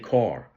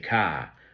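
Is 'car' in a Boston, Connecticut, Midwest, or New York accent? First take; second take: Connecticut; Boston. First: It is said in a Southwest Connecticut accent. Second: It is said in a Boston accent.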